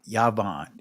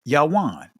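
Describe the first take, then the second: First: The middle consonant is a v sound. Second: The middle consonant is a w sound. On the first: This is the modern Israeli pronunciation. "In the Israeli, Yavan is how it's pronounced" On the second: This is the ancient pronunciation. "The ancient Hebrew pronunciation of it is Yawan"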